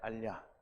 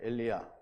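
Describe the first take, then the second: First: It is read quickly, starting with 'a'. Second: It is read in full, starting with 'e'. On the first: "근데 이거를 빨리 읽으면 알리야가 돼요" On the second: "이거를 제대로 읽으면 엘리야가 되는 거예요"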